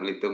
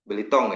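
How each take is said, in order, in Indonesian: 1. Suku kata terakhir memiliki vokal u. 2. Suku kata terakhir memiliki vokal o. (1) "bukan Belitung ya" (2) "Belitong ya"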